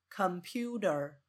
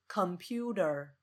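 No difference in how they are said.

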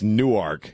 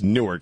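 First: Newark is said the Delaware way. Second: Newark is said the New Jersey way. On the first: It names the town in Delaware. "it's Newark in Delaware" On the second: It names the city in New Jersey. "It's Newark in Jersey"

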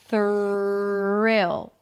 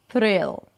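First: The R is a smooth, held-out sound. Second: The R is a quick tongue flap. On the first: The speaker calls it right. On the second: The speaker calls it wrong.

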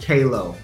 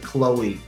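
First: It begins with a 'kay' sound. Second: It begins with a 'klo' sound. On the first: The speaker calls it right. "it is pronounced Kalo" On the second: The speaker calls it wrong. "Iman was pronouncing it Chloe, and that was very confusing"

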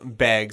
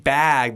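First: The vowel is raised, close to 'big'. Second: It has a standard American vowel. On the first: "A lot of people from Montana, ... they say, you know, bag" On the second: "instead of saying bag"

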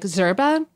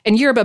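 First: It is said with a Spanish pronunciation. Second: It is said with an American pronunciation. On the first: "In Spanish, it's closer to like zerba" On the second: "is a super American pronunciation"

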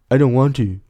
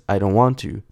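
First: It is said with strong emotion, acted out. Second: It is said plainly, without acted emotion.

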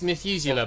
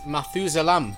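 First: The word ends in an open 'ah' sound. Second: The word ends in an 'am' sound. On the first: "It is Methuselah" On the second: "they said Methuselam. ... Dutch pronunciation"

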